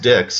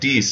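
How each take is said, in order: First: It is said with an English pronunciation. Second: It is said with a French pronunciation. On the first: "it was pronounced Dix" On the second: "instead of pronouncing it Dix"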